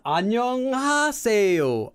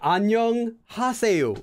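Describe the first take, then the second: First: The h sound is nearly silent. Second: The h sound is clearly pronounced. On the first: The speaker calls it right. "It's not an H, it's just air" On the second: The speaker calls it wrong. "you used romanization to learn Korean like they told you not to"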